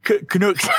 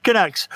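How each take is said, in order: First: "Canucks" said ka-NOOKS with a laugh; mispronounced Canucks. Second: "Canucks" said kuh-NUCKS; corrected pronunciation. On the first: Guest slipping back into the wrong "Canucks", oo as in nooks. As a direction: stumble into "Canucks" with a long oo. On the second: Guest fixing the slip, "Canucks" rhyming with ducks. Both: Shown as a demonstration. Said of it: "pronounce it wrong".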